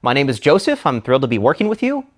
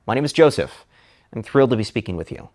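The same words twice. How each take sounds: First: Joseph rising like a question; My name is Joseph, with Joseph rising as if asking; uptalk. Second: Joseph falling, settled and sure; My name is Joseph, with Joseph falling to a firm close; downward inflection. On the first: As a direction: make the statement sound unsure, lifting Joseph. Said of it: "sounds uncertain". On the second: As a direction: land Joseph firmly down. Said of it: "Uptalk creates". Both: Shown as a demonstration.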